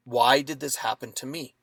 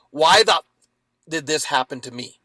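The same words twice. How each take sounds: First: Soft, wondering question with a rise; curious. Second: Angry why-me outburst, loud start; bitter victim. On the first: Man looking back at the attack, softly curious question. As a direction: ask it with real curiosity. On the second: Man angry at the dog attack, bitter loud why-me. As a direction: rage at the universe over the attack. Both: Shown as a demonstration. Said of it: "when I looked at it with, in curiosity".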